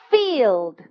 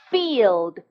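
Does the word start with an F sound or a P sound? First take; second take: F sound; F sound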